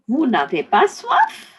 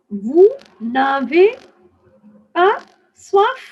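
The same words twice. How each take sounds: First: It is said at a normal speaking speed. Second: It is said slowly, word by word.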